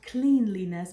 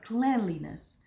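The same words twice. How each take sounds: First: The first syllable sounds like the word clean. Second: The first syllable does not sound like clean. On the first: The speaker calls it wrong. "is not cleanliness" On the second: The speaker calls it right. "but cleanliness"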